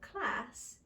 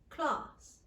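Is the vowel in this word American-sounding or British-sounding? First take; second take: American; British. First: The vowel is a flat, nasal American 'a'. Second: The vowel is a British 'ah' with a lower jaw. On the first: "standard Americans would pronounce with the a vowel" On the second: "becoming a more slightly narrow sound, ah"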